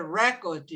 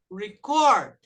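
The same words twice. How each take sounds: First: "record" com força em RE-, como substantivo; "record" acentuado no começo, RE-cord; stress on first syllable. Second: "record" com força em -CORD, como verbo; "record" acentuado no fim, re-CORD; stress on second syllable. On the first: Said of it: "Quando é substantivo, é". ("record" tônica no RE, substantivo) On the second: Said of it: "a sílaba forte é no". ("record" tônica no CORD, verbo) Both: Shown as a demonstration.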